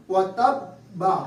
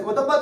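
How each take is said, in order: First: وَتَبَّا slow, the ب held and doubled; sit on the ب then say وَتَبَّا; correct slow reading. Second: وَتَبَّا said fast without stopping on the shadda; wrong rushed reading. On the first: Teacher demonstrating the right doubled ب for students. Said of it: "پہلے بیٹھیں گے، سکون کریں گے". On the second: Teacher showing students the wrong quick reading. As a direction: rush through وَتَبَّا with no pause on the ب. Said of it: "ایسے وَتَبَّا تو نہیں کہیں گے نا". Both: Shown as a demonstration.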